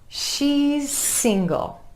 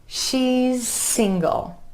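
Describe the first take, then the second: No difference in how they are said.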